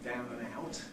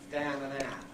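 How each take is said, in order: First: The vowel in down and out sounds like ow. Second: The vowel in down and out sounds like ah. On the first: "Parts of London is sort of ow" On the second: "it has a broad Cockney version which is ah"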